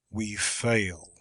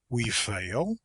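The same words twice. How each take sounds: First: It is said in a deep, low, resolute tone. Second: It is a quick, contemptuous question.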